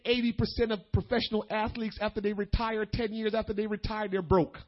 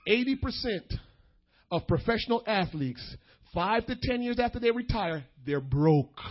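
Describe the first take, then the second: First: Brisk, running phrases with no pauses; quick aside. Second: Deliberate, with weighty pauses between phrases; emphatic repeat. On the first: Preacher tossing in a fact about retired athletes, quick aside. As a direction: rattle off the statistic in one run. Quick first statement of statistic. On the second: Preacher making young people hear the statistic, emphatic and measured. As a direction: break the statistic into separate phrases. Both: Real, not acted.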